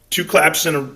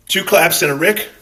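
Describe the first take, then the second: First: Said in the usual way. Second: Higher, louder sign-off call; two claps and a Rick, pitched up and punchy; catchphrase sign-off. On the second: Shown as a demonstration. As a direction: sell the catchphrase like a signature.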